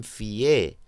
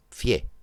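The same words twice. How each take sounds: First: "fié" drawn into two syllables, fi-É; two-syllable hiatus. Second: "fié" squeezed into one syllable, fyé; one-syllable diphthong. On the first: Teacher showing what Mexicans don't say, "fié" as hiatus. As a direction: say "fié" with a full i, then stressed é. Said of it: "No dicen fié". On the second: Teacher showing how Mexicans say it, "fié" as diphthong. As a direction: say "fié" as a monosyllable with a gliding i. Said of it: "dicen fié". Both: Shown as a demonstration.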